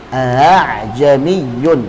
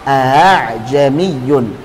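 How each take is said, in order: First: The second glottal stop is softened toward a vowel. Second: The second glottal stop is softened toward a vowel.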